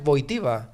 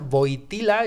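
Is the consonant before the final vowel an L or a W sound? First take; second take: W; L. First: The consonant is a W-like sound. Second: The consonant is a clear L sound. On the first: The speaker calls it right. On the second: The speaker calls it wrong.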